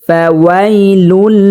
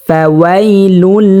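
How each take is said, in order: Both takes have the same delivery.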